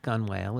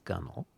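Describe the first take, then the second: First: The second syllable sounds like the word whale. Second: The second syllable is reduced to a short nel. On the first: The speaker calls it wrong. "it's not gun whale" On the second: The speaker calls it right. "it's gunnel"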